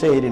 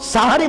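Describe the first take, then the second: First: The word begins with 'se' and has two syllables. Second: The word begins with 'sa' and has three syllables. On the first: It sounds like the word for magic. The speaker calls it wrong. "সেহরি নয়" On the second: It names the pre-dawn meal. The speaker calls it right. "সাহারি বলার চেষ্টা করবেন"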